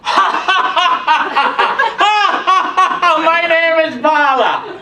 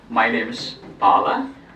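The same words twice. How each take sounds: First: It is said while laughing. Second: It is said in a plain, normal voice.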